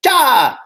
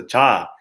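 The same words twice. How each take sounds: First: 자 said louder, as the sound to avoid; 자 pushed out as a wrong example. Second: 자 with a relaxed, dropped vowel; correct sound. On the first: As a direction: blurt 자 loudly as the mistaken version. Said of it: "understand that it's not, you know, like". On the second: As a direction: settle 자 down into a low open ah. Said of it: "it's a 자". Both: Shown as a demonstration.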